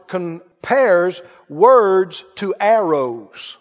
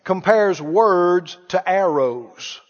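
First: Slow emphasis. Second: Slow repeat. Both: Shown as a demonstration. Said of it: "Have you read it?".

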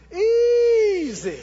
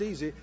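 First: "Easy" stretched long on a high, loud first syllable; exultant, elongated "Easy"; drawn-out easy. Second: Said in the usual way. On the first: Shown as a demonstration. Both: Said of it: "Not, not just easy".

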